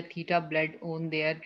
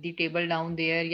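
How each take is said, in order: First: "Theta bled on there" said slowly as the wrong word split; alternate segmentation. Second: "The table down there" read slowly, word by word; slow example. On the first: Teacher contrasting the senseless split for students. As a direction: regroup the same sounds into other words. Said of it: "या". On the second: Teacher rereading the example to the class. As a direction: say it carefully as the right split. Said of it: "जैसे अब". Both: Shown as a demonstration.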